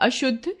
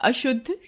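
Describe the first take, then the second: No difference in how they are said.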